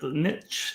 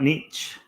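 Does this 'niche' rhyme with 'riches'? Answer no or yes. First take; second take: yes; no. First: The word rhymes with riches. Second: The word does not rhyme with riches. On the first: The speaker calls it right. "We have to pronounce it niche" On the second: The speaker calls it wrong. "not niche"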